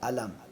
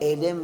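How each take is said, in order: First: The first vowel sounds like 'a'. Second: The first vowel sounds like 'e'. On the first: The speaker calls it right. "अलम अलम" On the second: The speaker calls it wrong. "एलिम नहीं पढ़ना है"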